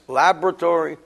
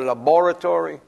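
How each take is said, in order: First: It is said in the speaker's plain accent. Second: It is said in an Australian accent.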